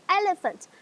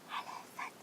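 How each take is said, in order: First: It is said loudly and high. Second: It is said quietly and low.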